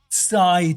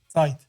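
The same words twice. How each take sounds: First: The s sound at the start is strong. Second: The t sound at the start is strong. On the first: The speaker calls it right. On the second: The speaker calls it wrong. "You're saying t"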